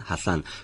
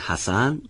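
First: The middle consonant is a lisped th sound. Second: The middle consonant is a plain hissing s. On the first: "نوک زبانی صحبت میکنن و سین رو مثل به این شکل سه نقطه عربی میگن" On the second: "به جایی که بگن حسن"

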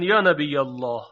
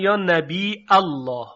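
First: The phrase is said without a glottal stop. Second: The phrase is said with a glottal stop.

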